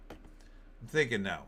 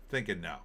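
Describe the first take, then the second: First: "thinking no" said slowly and deliberately, each word weighted; slow emphatic repeat. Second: Said in the usual way. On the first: Real, not acted. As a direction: drag out "thinking no" to drive it home. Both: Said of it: "repeats it for emphasis".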